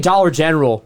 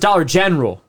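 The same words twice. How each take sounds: First: The 'gen' syllable gets no extra emphasis. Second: The 'gen' syllable is strongly emphasized. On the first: The speaker calls it right. "He doesn't say Dollar General" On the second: The speaker calls it wrong. "Emphasis on the gen"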